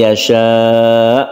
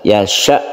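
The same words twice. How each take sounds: First: The final vowel is long and drawn out. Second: The final vowel is short, not drawn out. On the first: The speaker calls it wrong. "Biasanya kan may yasha, bukan" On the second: The speaker calls it right. "Yasha begitu aja ya. Bukan yashanya itu panjang"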